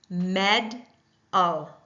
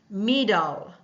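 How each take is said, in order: First: The first vowel is short, like 'meh'. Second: The first vowel is long, like 'me'. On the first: The speaker calls it right. "Does that not sound a lot better?" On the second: The speaker calls it wrong. "So we will hear me instead of meh"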